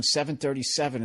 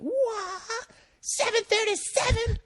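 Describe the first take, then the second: First: Said in the usual way. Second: Shrill high scream of the question, much higher; loud screamed question. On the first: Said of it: "And he kept going". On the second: Retold or imitated. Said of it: "As loud as he could".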